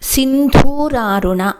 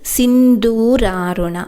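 First: The start is hit with a forceful jolt. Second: The start is said smoothly without a jolt. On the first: The speaker calls it wrong. "దూకి ఒత్తు పెట్టి ఆరంభిస్తున్నారు" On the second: The speaker calls it right. "అది సింధూరారుణ"

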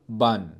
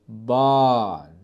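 First: The vowel is cut short. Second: The vowel is held long. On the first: The speaker calls it wrong. "وليس بان" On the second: The speaker calls it right. "أصبح نطق المقطع الصوتي طويل جدا"

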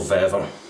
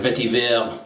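First: It is said in a plain English accent. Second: It is said in a French accent.

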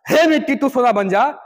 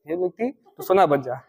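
First: It is said with fresh, lively energy. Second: It is said slowly and very quietly, mumbled.

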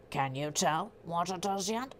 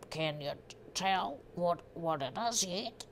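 First: It is read in the speaker's normal accent. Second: It is read in a put-on Australian accent.

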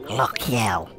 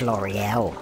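First: It is said with a throaty French pronunciation. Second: It is said with a plain English pronunciation.

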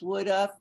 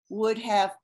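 First: The words are said fast and run together. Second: Both words are said slowly and fully.

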